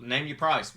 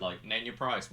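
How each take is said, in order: First: Louder and higher, a pushy offer on "price". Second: Said in the usual way. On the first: Retold or imitated. Roman bargaining with Jimmy, "price" said loud and high. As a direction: slam down "Name your price" like a deal. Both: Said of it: "he's like".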